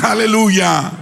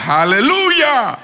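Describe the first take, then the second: First: Raised, higher preacher's hallelujah; congregational call. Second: High, drawn-out shouted hallelujah; full-force preacher's cry; loud praise shout. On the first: Real, not acted. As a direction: lead the crowd in a hallelujah. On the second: Shown as a demonstration. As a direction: belt it out so the congregation answers hard. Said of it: "Yo quiero que se oiga duro".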